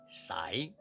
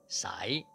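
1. 这个音节的元音读作 'ai'。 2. 这个音节的元音读作 'ai'。

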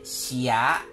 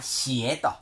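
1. この単語は 'ah' の母音で終わります。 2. この単語は 'eh' の母音で終わります。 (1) "XIE でなくて、XIA、シア、という風に発音しなさい" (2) "北京語、中国語をですね、習っている人は、シエと、ですね、いう音で、習うと思います"

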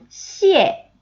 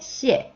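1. 이 음절은 강한 하강조로 발음해요. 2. 이 음절은 짧고 가볍게, 힘을 주지 않고 발음해요. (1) "앞에 있는 녀석 몇 성? 4성. 그쵸? 씩씩한 소리" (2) "뒤에는 경성이니까 짧고 가볍게"

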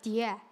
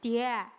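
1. 用陕北口音说的。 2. 用陕北口音说的。

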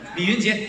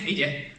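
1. 三个音节都读得很清楚。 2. 中间那个音节被吞掉了，没有读出来。

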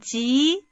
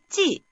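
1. 음이 중간에서 높게 올라갑니다. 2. 음이 높은 데서 낮은 데로 급하게 떨어집니다. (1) "이성으로 한번" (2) "사성으로"

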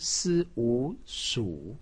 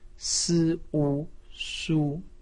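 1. 音高先降到低，再升起来。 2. 音高保持高而平。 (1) "三声" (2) "一声"

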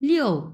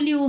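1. শব্দটি 'yo' ধ্বনি দিয়ে শেষ হয়। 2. শব্দটি 'oo' ধ্বনি দিয়ে শেষ হয়। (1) "ইয়োটা উচ্চারণ করতে হবে, ইয়ো এরকম" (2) "লিউ লিউ হবে না"

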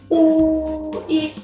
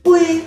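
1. สระสองตัวพูดช้าและแยกกัน 2. สระสองตัวพูดเร็วเป็นเสียงเดียว (1) "ออกเสียงที่1 ยาวๆจบด้วยเสียงที่2 สั้นๆ" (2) "ออกเร็วก็จะเป็นอุย"

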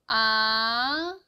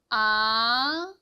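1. 음이 낮은 데서 높은 데로 부드럽게 올라갑니다. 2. 음이 낮은 데서 높은 데로 부드럽게 올라갑니다.

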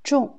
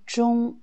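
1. La syllabe se dit avec un ton qui descend brusquement. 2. La syllabe se dit sur un ton haut et plat. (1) "quatrième ton" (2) "Quand c'est le premier ton"

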